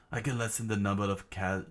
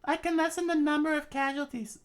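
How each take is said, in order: First: Said in the usual way. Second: Very high falsetto character voice; princess falsetto. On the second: Acted. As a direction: switch up into the princess's voice. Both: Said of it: "I thought that was, uh, Sir Crocodile".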